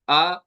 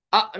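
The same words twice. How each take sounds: First: आ released gently, ending by itself; easy release. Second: आ chopped off abruptly; a jerked, very short आ; sudden stop. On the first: Teacher modelling relaxed release of आ. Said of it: "आराम से आवाज को छोड़ेंगे". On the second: Teacher showing what not to do, abrupt आ. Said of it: "आ नहीं करेंगे आप". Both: Shown as a demonstration.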